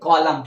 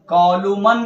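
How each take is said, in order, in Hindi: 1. अंतिम N ध्वनि silent है। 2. अंतिम N ध्वनि बोली जाती है। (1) "क्या पढ़ेंगे? कॉलम।" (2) "कॉलुमन नहीं पढ़ेंगे"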